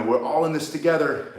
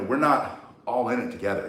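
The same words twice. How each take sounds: First: Light mock announcer read of the slogan; quoting the store announcement. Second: "not" leaned on in "We're not all in it together"; stress on not. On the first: Mocking the grocery store loudspeaker, light announcer tone. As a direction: echo the loudspeaker slogan, slightly raised. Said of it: "they would say, you know". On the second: Shown as a demonstration. Correcting the store slogan for viewers, stress on "not". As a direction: push "not" to flip the slogan. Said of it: "Anyway, I used to think".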